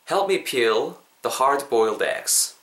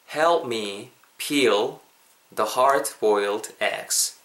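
First: The sentence is spoken at a normal pace. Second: The sentence is spoken at a slow pace.

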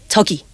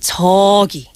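First: The word is said short and quick. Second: The word is stretched out and drawn long. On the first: "instead of short like 저기" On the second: "we make it longer like 저기"

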